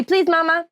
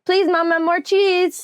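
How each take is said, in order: First: Put-on high, cutesy toddler voice; baby voice. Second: Put-on high sweet toddler plea; baby voice. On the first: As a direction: coax like a little child. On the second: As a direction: ask like a tiny child. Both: Shown as a demonstration.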